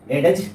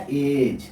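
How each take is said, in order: First: एडेज said as "e-dej", d sounded, lifted at the end; mock the mistake by sounding the d in एडेज; wrong reading. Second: एज said as "edge", the d silent; correct reading. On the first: Teacher showing students the wrong एडेज, d sounded. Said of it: "एडेज नहीं पढ़ते हैं". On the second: Teacher giving students the correct एज, d silent. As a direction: say एज the right way, no d sound. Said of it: "एज पढ़ते हैं". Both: Shown as a demonstration.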